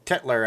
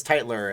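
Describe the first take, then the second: First: "Tetler" said with a short e in the first syllable; mispronounced surname. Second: "Teitler" with first syllable rhyming with "kite"; corrected surname. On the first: Streamer stumbles over a viewer's surname, "Tetler" with short e. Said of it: "I said it wrong". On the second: Streamer corrects a viewer's surname, "Teitler" with long i. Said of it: "I think it's Teitler". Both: Shown as a demonstration.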